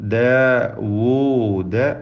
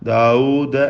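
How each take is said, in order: First: The w sound in the middle is clear. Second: The w sound in the middle is blurred. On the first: The speaker calls it right. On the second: The speaker calls it wrong.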